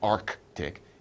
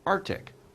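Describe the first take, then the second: First: The first c sound is clearly pronounced. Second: The first c sound is left out. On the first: The speaker calls it wrong. "It's not Arctic" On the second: The speaker calls it right. "We don't really pronounce the C"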